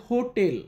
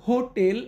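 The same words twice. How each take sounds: Both takes have the same delivery.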